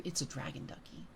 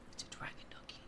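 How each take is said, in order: First: Said in the usual way. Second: Very soft, breath-only whisper; ASMR whisper. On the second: Real, not acted. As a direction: whisper it gently into the mic. Repeats it softly in ASMR stream.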